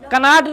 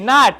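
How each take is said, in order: First: The word begins with a pronounced k sound. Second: The word begins directly with an n sound. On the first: The speaker calls it wrong. "कनाट नहीं" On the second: The speaker calls it right. "यहां पर के silent है।"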